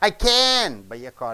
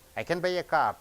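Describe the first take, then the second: First: The stress falls on the word can. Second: The stress falls on the word car. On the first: It is an emphatic positive statement. "Extra positive" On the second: It is a plain positive statement.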